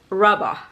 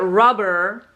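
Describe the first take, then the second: First: British accent, with the R sound barely pronounced. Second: American accent, with the R sound clearly pronounced.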